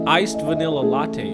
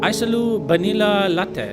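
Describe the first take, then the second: First: It is said with English pronunciation. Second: It is said with Japanese pronunciation. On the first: The staff did not understand it. The speaker calls it wrong. "She said she didn't understand" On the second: The staff understood it. The speaker calls it right. "And she said, ah, yes, yes"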